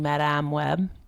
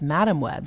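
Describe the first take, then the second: First: Madame is pronounced the French way. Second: Madame is pronounced the English way. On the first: "I've been saying Madame Web" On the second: "apparently it's Madame Web"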